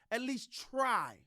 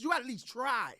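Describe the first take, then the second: First: "At least try." said very slowly, each word spaced out; slow emphatic repeat. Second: Said in the usual way. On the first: Shown as a demonstration. Host urging the Cowboys to try, stretching "At least try." out slowly. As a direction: drag out "At least try." for weight.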